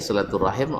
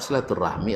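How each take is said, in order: First: The word ends with the sounds 'rahim'. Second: The word ends with the sounds 'rahmi'. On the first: This is how Arabs say it. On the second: This is how Indonesians say it. "orang Indonesia"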